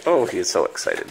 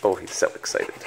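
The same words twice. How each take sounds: First: Said in the usual way. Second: Whisper. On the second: Real, not acted. Repeated to dog.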